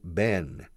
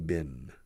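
First: The vowel sounds like the one in 'bed'. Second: The vowel sounds like the one in 'bit'. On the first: "It's not Ben" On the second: "I say Ben, como si fuera una... Cubo de la basura"

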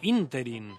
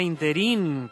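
First: The stress is on the first syllable. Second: The stress is on the last syllable. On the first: The speaker calls it right. "es esdrújula" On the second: The speaker calls it wrong. "no aguda, no se pronuncia ínterin, como solemos hacer"

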